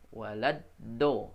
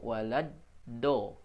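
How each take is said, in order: No difference in how they are said.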